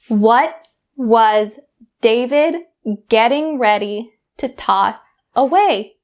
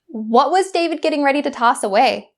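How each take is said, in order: First: It is spoken at a much slower speed. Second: It is spoken at a normal conversational speed. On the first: "once at a much slower speed" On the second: "once at my normal speed"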